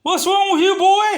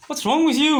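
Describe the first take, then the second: First: Very high, loud mock yell; outraged seller. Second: High-pitched mock scolding; indignant seller. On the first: Seller berating the customer who called, outraged. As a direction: imitate the seller's outrage at full pitch. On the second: Seller rebuking the customer who called, indignant. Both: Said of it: "And he's like".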